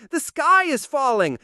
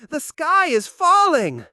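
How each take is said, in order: First: Panicked cry. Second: Panicked cry, louder. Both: Acted. Panicked bird repeats.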